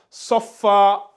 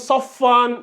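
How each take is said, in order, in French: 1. Le mot se termine par une voyelle a longue. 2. Le mot se termine par un son n. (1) "vu qu'on va faire une pause ici, on va lire ça" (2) "On va pas lire Saufan, Sofan. Non"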